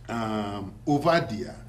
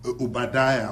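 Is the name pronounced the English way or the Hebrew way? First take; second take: Hebrew; English. First: The name is pronounced the Hebrew way. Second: The name is pronounced the English way. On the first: "which is the proper pronunciation in Hebrew" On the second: "Obadiah or whatever in English"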